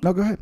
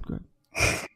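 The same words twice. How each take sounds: First: Said in the usual way. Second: Whisper. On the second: Real, not acted. Host yielding to his guest, whispered. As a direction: go ahead whispered, no voice at all.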